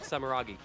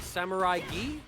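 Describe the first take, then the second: First: The name's third syllable sounds like 'rah'. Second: The name's third syllable sounds like 'rye'. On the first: The speaker calls it right. "actually, yeah, you're right" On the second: The speaker calls it wrong. "I added an extra I"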